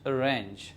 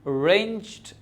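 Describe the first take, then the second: First: The final d sound is dropped. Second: The final d sound is pronounced. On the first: The speaker calls it wrong. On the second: The speaker calls it right.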